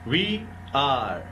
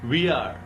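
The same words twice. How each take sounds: First: Both words are said fully and separately. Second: The words are merged into one short syllable.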